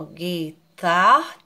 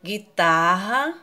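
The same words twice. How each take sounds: First: Guitarra split as gui... tar... ra; slow, held beats on guitarra; guitarra, the two R letters in different syllables. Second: Said in the usual way. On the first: Shown as a demonstration. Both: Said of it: "Os dois R's se separam".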